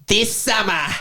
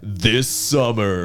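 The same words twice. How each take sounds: First: It is said in an Australian announcer accent. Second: It is said in an American announcer accent. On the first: "it's like Australian announcer" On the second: "it's always American"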